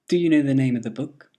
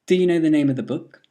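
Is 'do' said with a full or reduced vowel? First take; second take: reduced; reduced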